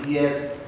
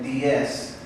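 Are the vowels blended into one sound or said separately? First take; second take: blended; separately. First: The vowels are merged into one sound. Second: Each vowel is pronounced with its own sound. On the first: The speaker calls it wrong. "Maybe you're trying to say them together" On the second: The speaker calls it right. "Give each vowel its own sound"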